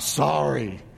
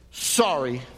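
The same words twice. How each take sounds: First: It is said in an annoyed tone. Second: It is said in an angry tone. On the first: "you got annoyed" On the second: "You got anger"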